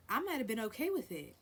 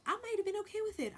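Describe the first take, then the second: First: Said in the usual way. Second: "I might have been okay with it" squeaked up high and quick; much higher and faster. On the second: Shown as a demonstration. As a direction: jump way up in pitch and rush it.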